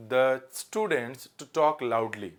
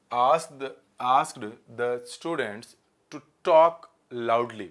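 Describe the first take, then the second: First: Slow dictation. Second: Slow corrected read-out. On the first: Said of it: "इसका answer करें". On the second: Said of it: "loudly होगा कि allowed होगा". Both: Shown as a demonstration.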